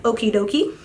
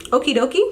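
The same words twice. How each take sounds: First: Mock chirpy okie dokie, a touch of her voice; lightly voiced doctor, sing-song; imitating the doctor. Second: Mimicking the doctor. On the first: Scene: mom mocks her doctor's okie dokie to viewers, light mimicry. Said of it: "She's like". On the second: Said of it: "I'm telling y'all what she said".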